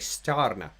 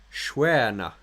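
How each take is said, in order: First: The word is read out as English spelling suggests. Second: The word is said with its native Swedish sounds. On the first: The speaker calls it wrong. "think I'm going to say Starna" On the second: The speaker calls it right. "I know that it is actually pronounced Schwerna"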